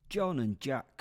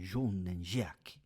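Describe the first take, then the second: First: The names are said in a plain accent. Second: The names are said in a French accent.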